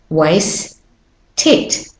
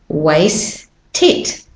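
Both takes have the same delivery.

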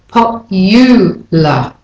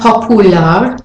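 First: A y sound comes right after the second p. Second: There is no y sound after the second p. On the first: The speaker calls it right. "but popular" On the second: The speaker calls it wrong. "It's not popular"

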